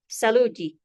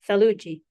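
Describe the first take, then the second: First: The word begins with an s sound. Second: The word begins with a th sound. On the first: "don't be surprised if you hear" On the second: "proper coastal Swahili"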